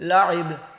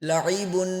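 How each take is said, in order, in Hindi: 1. शब्द का अंत अचानक "b" की आवाज़ पर होता है। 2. शब्द का अंत पूरी "un" की आवाज़ से होता है।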